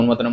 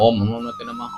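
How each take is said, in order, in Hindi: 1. इसे तेज़ और जल्दी-जल्दी बोला जाता है। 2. इसे धीरे और साफ़ बोला जाता है। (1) "ऐसा नहीं ... इस तरीके से नहीं बोलना है" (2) "आराम से बोलना है ... इस तरीके से आपको बोलना है"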